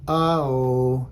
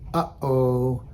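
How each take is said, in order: First: The vowels run together with no catch between. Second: A throat catch cuts between the two vowels. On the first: The speaker calls it wrong. "If you didn't have that break in there, it would just be" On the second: The speaker calls it right. "we're making that little break"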